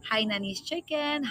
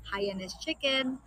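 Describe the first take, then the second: First: "Hainanese chicken" said slowly, with the n kept, as HAI-na-nese; slow, careful Hai-na-nese with the middle n put back in; correct dish name. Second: "Haianese chicken" said slowly, with no n after Hai, as HAI-a-nese; slow, careful Hai-a-nese without the middle n, the way some people say it; mispronounced dish name. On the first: Correcting herself on the dish name: "Hainanese chicken" said HAI-na-nese, n kept. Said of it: "I don't know how to say it actually".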